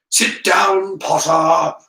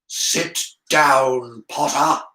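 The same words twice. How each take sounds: First: Loud, raised angry order; angry teacher's command, pushed up and loud. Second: Slow, measured order to sit; drawn-out, deliberate teacher's command; stern command. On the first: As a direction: order the pupil down angrily. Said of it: "said an angry voice". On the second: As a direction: spell out the order with controlled anger. Teacher repeats order to defiant pupil. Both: A narrator's reading.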